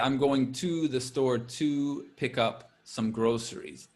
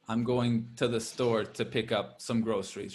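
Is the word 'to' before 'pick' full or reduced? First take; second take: full; reduced. First: The word 'to' is said in full. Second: The word 'to' is reduced to 'ta'. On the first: The speaker calls it wrong. "We don't say" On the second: The speaker calls it right. "the way we usually say that is more ta"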